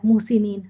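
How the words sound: It is pronounced with Arabic vowel quality. The speaker calls it right. "अरबी में भी आ जाता है"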